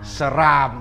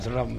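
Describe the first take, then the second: First: The second vowel is an open 'a'. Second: The second vowel is a weak 'e'. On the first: The speaker calls it right. "Seram, bukan serem" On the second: The speaker calls it wrong. "bukan serem"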